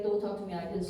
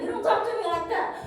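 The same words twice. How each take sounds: First: Low, soft, cold warning; firm and quiet. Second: High, fast, indignant comeback; angry retort. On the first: She calmly puts the rude vendor in his place. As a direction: say it quietly, drawing the line. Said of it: "this is the moment I need to be". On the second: She angrily tells off the rude vendor. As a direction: fire it back at him. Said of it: "and I'm mad". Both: Retold or imitated.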